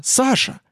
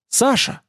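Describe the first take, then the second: First: Even higher anxious cry; crying out again. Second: High, anxious cry of his name. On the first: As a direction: call him again, more desperate. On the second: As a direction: call out to him in alarm. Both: A narrator's reading. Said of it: "вскричала она".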